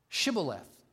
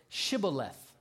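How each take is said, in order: First: The word begins with an 'sh' sound. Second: The same.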